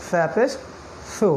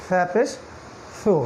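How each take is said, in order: No difference in how they are said.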